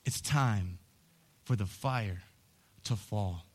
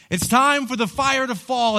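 First: Soft, low, slow, spaced words; hushed and low. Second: Loud, high cry on "time"; loud preaching call. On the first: Preacher whispering the call to his congregation, hushed. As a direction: draw them in quietly before the build. Quiet setup before shouted repeat. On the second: Preacher rallying his church for revival, loud. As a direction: burst out with the full force of the call. Shouted repeat after quiet line. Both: Acted.

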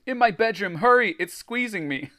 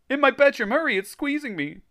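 First: High, loud, urgent plea; choked cry. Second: Very high hammed-up squeal; exaggerated choked cry. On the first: A narrator's reading. Greg strangled by the blob, choked urgent cry. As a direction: plead as if being squeezed. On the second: Reader replaying squeezed Greg for laughs, hammed-up squeal. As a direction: squeak it out in comic panic. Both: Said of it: "Greg choked".

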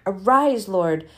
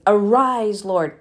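First: Said in the usual way. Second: Exclaimed. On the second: Shown as a demonstration. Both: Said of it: "There's an exclamation mark".

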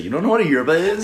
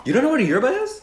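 First: Mock barista. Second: High incredulous question. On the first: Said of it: "You sound like a barista". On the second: Real, not acted. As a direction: ask in disbelief, pitched up.

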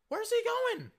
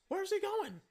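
First: Very high, louder squeal of disbelief; incredulous outcry. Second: Very high, squeaky disbelief; incredulous. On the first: Fan asks once more about the open receiver, crying out incredulously. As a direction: push the high question up into an outcry. Repeats the question, more worked up. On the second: Fan questions Seattle's blown coverage, incredulous. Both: Acted.

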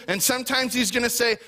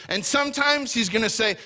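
Both takes have the same delivery.

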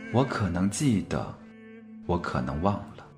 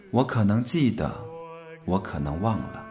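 The two takes are said the same way.

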